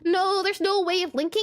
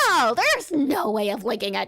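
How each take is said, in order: First: The line is read in a plain, neutral tone. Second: The line is read in a mocking, sarcastic tone. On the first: The speaker calls it wrong. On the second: The speaker calls it right.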